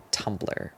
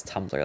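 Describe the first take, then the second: First: Breathy whispered Tumblr, dropped low; whispered aside. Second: Said in the usual way. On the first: Real, not acted. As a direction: slip the word Tumblr in as a hushed whisper. Trailing aside naming the site.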